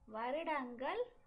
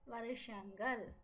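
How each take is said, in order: First: It uses the formal, written-style pronunciation. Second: It uses the colloquial, everyday spoken pronunciation. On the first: This is the form used in writing. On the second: This is the form used in speech.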